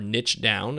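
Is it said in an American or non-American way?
American. It is said the American way.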